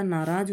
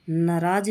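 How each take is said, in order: First: नाराज with long aa twice; correct pronunciation. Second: नाराज with a short first vowel; wrong pronunciation. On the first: Teacher correcting the word, नाराज with long naa. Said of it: "होता है". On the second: Teacher showing the error, नाराज with short na. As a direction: say नाराज as na-raaj. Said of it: "नहीं होता". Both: Shown as a demonstration.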